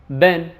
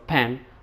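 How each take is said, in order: First: The word starts with a b sound. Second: The word starts with a p sound. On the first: The speaker calls it wrong. "they tend to say bark instead of a park, ben" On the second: The speaker calls it right. "instead of a pen"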